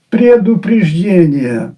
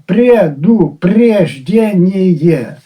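First: Said in the usual way. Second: Предупреждение stretched out syllable by syllable; a slow, dissecting Предупреждение; slow, drawn out. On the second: Shown as a demonstration. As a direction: drag out Предупреждение to show its doubled parts. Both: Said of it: "Двічі тавтологія виникла".

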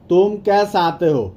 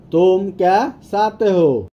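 First: Said in the usual way. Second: Spaced-out words for language learners. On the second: Shown as a demonstration. Slower repeat for learners.

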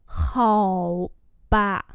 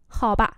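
First: Two long, separated syllables; slow model reading. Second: Said in the usual way. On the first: Shown as a demonstration. Teacher repeating a phrase for learners, slowly. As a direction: stretch both syllables out.

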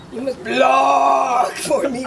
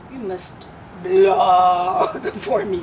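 First: Put-on slow, loud Greek-accented command; Arianna Huffington impression. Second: Imitating a Greek accent, drawn out slowly; Greek-accented command, stretched out; Arianna Huffington impression. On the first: [name] mimicking the Greek-accented hostess, louder and slow. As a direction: stretch every word in a thick Greek accent. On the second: [name] imitating the Greek-accented hostess at a party. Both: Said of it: "with that accent".

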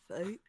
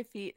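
First: "Feet" said as "fate", rising; "Feet" softly drawn toward "fate"; Hank Hill. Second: Said in the usual way. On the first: Acted. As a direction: turn the vowel of "Feet" into a Texan "ay". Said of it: "How would you say feet is Hank". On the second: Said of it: "How would you say feet".

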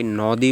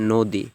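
First: নদী with open "aw", naw-dee; wrong pronunciation. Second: নদী with rounded "o", no-dee; correct pronunciation. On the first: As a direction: keep the first vowel of নদী open. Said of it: "না, আমরা বলি নদী". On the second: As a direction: round the first vowel of নদী to "o". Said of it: "ও হয়ে গিয়েছে". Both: Shown as a demonstration.

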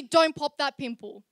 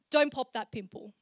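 First: Louder, insistent "don't pop that pimple"; emphatic repeat. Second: Said in the usual way. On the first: Acted. Poet insists to younger self, louder emphatic "don't pop that pimple". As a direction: push "don't pop that pimple" harder, as a serious warning. Repeats advice after "No, seriously.

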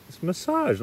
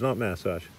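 First: MASSAGE stressed late, muh-SAHZH, high; American pronunciation. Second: MASSAGE front-stressed, MASS-ahzh; Australian pronunciation mimicked. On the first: Retold or imitated. Class correcting their teacher, stress on SAHZH. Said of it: "They're like". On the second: Class rejecting the teacher's version, stress on MASS.

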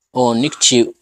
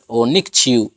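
First: Nikchiu with the final U almost gone; soft fading U. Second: Nikchiu with a full, strong final U; strong U, wrong. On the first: Teacher showing students the right way: nikchiu with a soft, fading U. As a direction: let the U of nikchiu fade to nearly nothing. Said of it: "debe ser más suavecita la pronunciación de la letra U". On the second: Teacher showing students the wrong way: nikchiu with a strong U. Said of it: "ya estoy un poquito incorrecto". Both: Shown as a demonstration.

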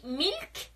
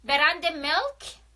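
First: میلک said with a Persian accent. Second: برند میلک said slowly with an English vowel; English-style brand name. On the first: Vlogger giving the Persian pronunciation of میلک. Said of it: "به لهجهٔ فارسی میلک". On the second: Vlogger showing the English pronunciation of میلک. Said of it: "یا به لهجهٔ فارسی میلک". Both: Shown as a demonstration.

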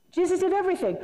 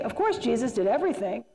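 First: "Jesus did everything" pitched higher, with firm weight on "did"; emphatic affirmation. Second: Said in the usual way. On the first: Shown as a demonstration. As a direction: lift the voice and lean hard on "did".

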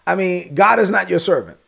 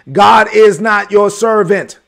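First: Said in the usual way. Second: "God is not your servant" said slowly and louder, every word weighted; slow, emphatic. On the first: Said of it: "To be clear, look at me". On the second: Shown as a demonstration. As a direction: lean hard into each word, slowly and louder. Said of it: "Let me be clear about something".

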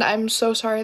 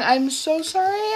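First: Said in the usual way. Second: Mock apology. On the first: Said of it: "this was a joke". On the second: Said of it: "I'm just joking".

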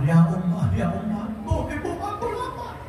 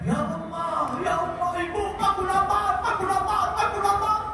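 First: A hint of a hungry baby, rising to high; imitating a crying infant, lightly; lightly voiced crying baby; mild baby wail. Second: Put-on high, soft crying child's wail; baby wailing, aku lapar; wailing hungry baby. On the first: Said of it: "anaknya nangis". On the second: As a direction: cry for your mother like a starving infant. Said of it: "Teriak-teriak".

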